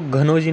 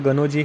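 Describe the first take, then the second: First: The name starts with a breathy 'gh' sound. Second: The name starts with a plain 'g' sound. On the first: The speaker calls it wrong. "पहले तो वो घनौजी नहीं है" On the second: The speaker calls it right. "गनौजी है"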